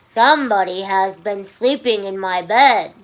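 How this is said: The voice is low and growly. "in his low, growly voice"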